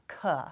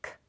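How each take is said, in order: First: The k is followed by a vowel sound. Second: The k is said alone without a vowel. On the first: The speaker calls it wrong. "I don't want to be adding a vowel sound" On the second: The speaker calls it right. "You just want to be saying the consonant sound"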